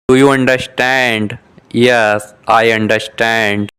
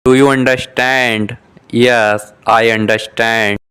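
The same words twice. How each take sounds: The two takes are said the same way.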